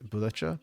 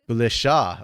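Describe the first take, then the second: First: The last syllable starts with a ch sound. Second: The last syllable starts with a sh sound. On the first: The speaker calls it wrong. "I was wrong both ways" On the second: The speaker calls it right.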